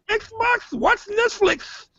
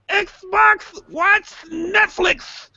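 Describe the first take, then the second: First: The phrase is said at a quick pace. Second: The phrase is said at a slow pace. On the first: The console does not understand the request. The speaker calls it wrong. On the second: The console understands the request. The speaker calls it right.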